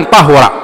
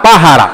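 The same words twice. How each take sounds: First: "طهر" with a short u after the ه; ضم الهاء. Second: "طهر" with a short a after the ه; فتح الهاء. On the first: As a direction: say "طهر" as ṭahura, damma on the ه. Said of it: "لغتان مشهورتان". (نطق "طهر" بضم الهاء) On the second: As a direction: say "طهر" as ṭahara, fatha on the ه. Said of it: "بفتح الهاء". (نطق "طهر" بفتح الهاء) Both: Shown as a demonstration.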